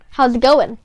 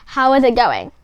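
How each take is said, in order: First: The words how and is are contracted. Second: The words how and is are said in full. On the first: The speaker calls it right. "you kind of have a shorter form there" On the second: The speaker calls it wrong. "It sounds it sounds really stiff"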